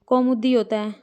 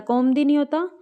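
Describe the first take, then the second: First: "कौमुदी" with its middle u, "kau-mu-di"; correct pronunciation. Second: "कौमुदी" clipped to "kaum-di"; wrong pronunciation. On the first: Teacher repeating the correction, "कौमुदी" as "kau-mu-di". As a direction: sound all three syllables of "कौमुदी". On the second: Teacher repeating the mistake for students, "कौमुदी" as "kaum-di". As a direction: drop the middle u of "कौमुदी". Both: Shown as a demonstration.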